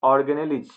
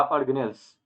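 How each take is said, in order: First: ऑर्गेनेलिज with an added "-ij" ending syllable, louder; alternative pronunciation. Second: ऑर्गेनेल्स ending straight in "-els"; alternative pronunciation. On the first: Teacher showing students what organelles are called, ऑर्गेनेलिज pronounced with extra final syllable. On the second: Teacher offering students the other form, ऑर्गेनेल्स pronounced with "-els" ending. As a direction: say ऑर्गेनेल्स with no extra final syllable. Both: Shown as a demonstration. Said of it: "उसको हम लोग क्या बोलेंगे?".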